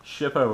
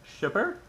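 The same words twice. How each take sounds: First: "Shippo" said slowly, ending on a plain o sound; first go at "Shippo", drawn out and hesitant; unsure name. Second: "Shipper?" ending in -er with a sharp high questioning rise; second try at the name, "Shipper?", pitched up in doubt; questioning retry. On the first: Viewer hears his slow first try at the director's name. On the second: Unsure second try at the director's name, asked as a question. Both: Real, not acted. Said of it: "I have such a hard time pronouncing".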